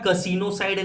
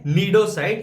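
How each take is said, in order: First: The word begins with a k sound. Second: The word begins with an n sound. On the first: The speaker calls it wrong. "कसिनोसाइड नहीं है" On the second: The speaker calls it right. "इसमें सी silent होता है भाई"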